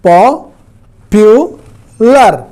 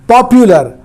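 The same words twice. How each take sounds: First: "popular" broken into three slow, separated syllables. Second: Said in the usual way. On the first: Shown as a demonstration. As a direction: pull "popular" apart, pausing after each syllable. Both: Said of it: "इस तरह से एक से अधिक syllable हैं".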